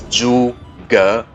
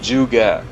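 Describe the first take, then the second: First: It is said with a Mandarin accent. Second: It is said with an English accent.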